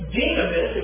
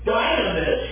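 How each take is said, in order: First: The first vowel is not a long I sound. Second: The first vowel is a long I sound.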